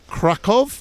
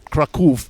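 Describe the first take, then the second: First: The name is said with an English pronunciation. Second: The name is said with a Polish pronunciation.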